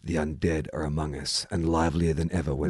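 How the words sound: The line is read in a grave, serious tone. "let's see if I can do it serious"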